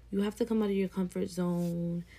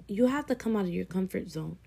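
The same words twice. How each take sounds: The two takes are said the same way.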